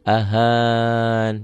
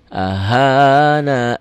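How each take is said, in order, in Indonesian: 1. Kata itu berakhir dengan bunyi n. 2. Kata itu berakhir dengan bunyi vokal. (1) "Kalau mau berhenti di sini" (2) "Kalau mau berhenti di sini"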